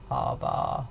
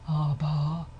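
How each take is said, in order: First: The voice is creaky, with a rough rattle. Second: The voice is breathy, with audible airflow. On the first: "all of these consonants are produced with creaky voice" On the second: "it's breathy, it will sound like this"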